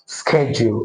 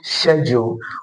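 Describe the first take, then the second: First: It is said with an American accent. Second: It is said with a British accent.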